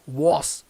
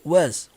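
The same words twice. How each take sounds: First: The word ends with an s sound. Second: The word ends with a z sound. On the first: The speaker calls it wrong. "Nós temos o hábito de pronunciar isso aqui como was" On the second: The speaker calls it right. "com o som do Z"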